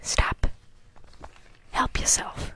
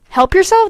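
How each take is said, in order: First: Breathy whispered meme line; whispering. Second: Higher, louder puzzled question. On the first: Pretend. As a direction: whisper it hoarsely. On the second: Real, not acted. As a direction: ask it back, confused. Repeats meme line aloud, puzzled.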